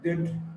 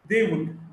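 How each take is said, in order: First: The two words are run together, contracted. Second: Both words are said in full.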